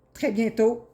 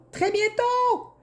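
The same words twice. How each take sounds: First: Said in the usual way. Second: High, slow, drawn-out teasing call; drawn-out sing-song teaser, pitched way up; singsong tease. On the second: Acted. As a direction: sing it out high like a playful promise. Tarot reader teasing a prediction.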